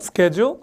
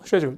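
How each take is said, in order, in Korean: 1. 강한 sk 소리로 시작해요. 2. 부드러운 sh 소리로 시작해요. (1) "미국식으로 하면 우리처럼 스케줄" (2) "영국 가면 쉐줄이라고 하는 사람들이 많거든요"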